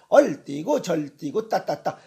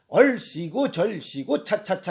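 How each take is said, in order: First: The consonants are replaced by d and t sounds. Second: The consonants are clear s and ch sounds. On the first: The speaker calls it wrong. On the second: The speaker calls it right.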